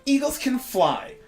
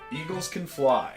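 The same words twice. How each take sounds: First: It is read in a put-on character voice. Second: It is read in the speaker's normal voice.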